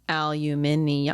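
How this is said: British way, with five syllables.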